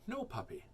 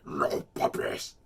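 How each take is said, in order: First: It is said in the speaker's own natural voice. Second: It is said in a put-on character voice. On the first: Listeners cannot tell a different character is speaking. The speaker calls it wrong. "They don't know it's you, right?" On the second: Listeners can tell a different character is speaking. The speaker calls it right. "Then they know it's you"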